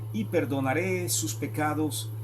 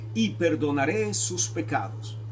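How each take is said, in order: The two takes are said the same way.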